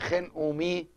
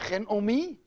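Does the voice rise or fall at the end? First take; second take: fall; rise. First: It is said as a statement, falling. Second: It is said as a question, rising.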